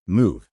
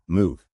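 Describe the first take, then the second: First: Sharp loud order; panicked shout. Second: Lightly raised command; mild shout. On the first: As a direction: bark the word out, panicked. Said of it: "Someone yells from behind the doors". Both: Retold or imitated.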